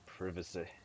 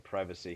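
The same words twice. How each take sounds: First: The word is said in a British way. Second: The word is said in a non-British way. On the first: This is the way picked up from watching shows. "We're watching a lot of British shows right now, so we say privacy" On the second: This is the usual way that is not used here. "We don't say privacy here"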